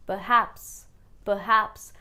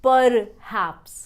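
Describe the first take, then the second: First: "perhaps" as "puh-haps"; weak first syllable in "perhaps"; r-less "perhaps"; silent r. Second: Loud "perhaps" with sounded r; full "purr" opening "perhaps"; wrong pronunciation. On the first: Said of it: "इस word को pronounce करेंगे". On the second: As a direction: hit the r in "perhaps". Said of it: "and not". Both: Shown as a demonstration.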